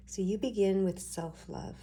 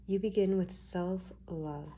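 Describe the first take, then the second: First: Said in the usual way. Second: Slowed down, laying out each word; slow emphatic repeat. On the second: Shown as a demonstration. Reader to viewers, slowly stressing self-love. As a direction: say it again slowly so it lands.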